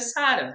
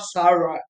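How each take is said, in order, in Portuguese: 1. O nome é pronunciado com sotaque do português brasileiro. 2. O nome é pronunciado com sotaque do inglês americano. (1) "é Sarah" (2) "falando Sara com, com sotaque"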